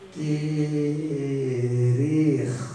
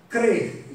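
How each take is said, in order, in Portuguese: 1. A palavra é dita devagar e alongada. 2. A palavra é dita rapidamente, em uma sílaba curta. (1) "Vou falar bem lentinho" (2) "estou falando rápido"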